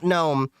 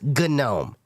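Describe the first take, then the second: First: The starting G is silent. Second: The starting G is sounded. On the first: The speaker calls it wrong. "It's not GNOME" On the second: The speaker calls it right. "it's GNOME, because it's based, it's part of the whole G N U"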